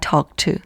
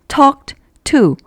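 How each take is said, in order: First: The words are linked and the -ed is dropped. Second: The words are separated and the -ed is heard. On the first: "보통 말할 때는 뒤에 오는 to 발음의 영향을 받아서 그냥 drop 된다" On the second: "이렇게 띄어서 말하면"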